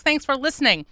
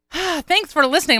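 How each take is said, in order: First: Said in the usual way. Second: Real winded sigh into higher-pitched words; out of breath. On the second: Real, not acted. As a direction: catch your breath with a big exhale, then speak. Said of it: "I'm so out of breath".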